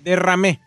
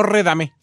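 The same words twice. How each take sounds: First: "Derramé" with de- first and a rolled rr; correcting with "Derramé"; correct pronunciation. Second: "redamé" with r and d swapped; quoting the slip "redamé"; mispronunciation. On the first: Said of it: "no redamé". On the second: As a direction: say "redamé", starting re- then a soft d. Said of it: "Derramé, no redamé". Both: Shown as a demonstration.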